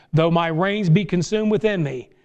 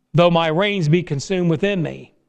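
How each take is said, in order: No difference in how they are said.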